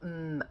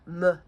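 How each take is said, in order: First: The consonant is held with no vowel after. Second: An extra uh vowel follows the consonant. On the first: The speaker calls it right. "don't get that additional sound uh" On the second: The speaker calls it wrong. "they're not saying things like"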